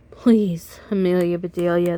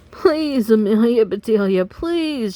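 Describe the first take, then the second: First: Said in the usual way. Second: Desperate shouted please. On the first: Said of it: "they said". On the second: Acted. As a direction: beg her loudly from the bench. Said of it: "shouted the Grizzlies".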